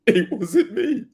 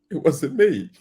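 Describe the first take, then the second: First: "[name]" lightly sung in a laughing [name] voice, louder; a hint of [name]'s "[name]", higher and laughing. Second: Said in the usual way. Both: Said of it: "It turned into [name]".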